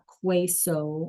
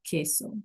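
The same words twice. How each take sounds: First: The word begins with a kw sound. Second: The word begins with a plain k sound. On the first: The speaker calls it wrong. "It's not queso or anything like that" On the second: The speaker calls it right. "Notice the Q U E is the K sound"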